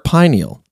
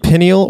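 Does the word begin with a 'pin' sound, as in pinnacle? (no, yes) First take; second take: no; yes. First: The first syllable does not sound like 'pin'. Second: The first syllable sounds like 'pin' in pinnacle.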